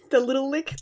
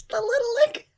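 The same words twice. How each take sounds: First: Said in the usual way. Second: "The little lick" squeaked much higher through laughter; laughing squeal. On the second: Real, not acted. Repeats phrase, laughing squeal.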